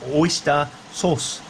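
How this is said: It is said with a Japanese pronunciation. This is what people in Japan call it. "in Japan they call it"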